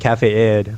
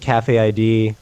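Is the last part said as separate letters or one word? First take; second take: one word; letters. First: The last part is said as one single word. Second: The last part is spelled out as two letters. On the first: The speaker calls it right. "it's actually pronounced Cafe Id" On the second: The speaker calls it wrong. "We just pronounce it I D because we're American"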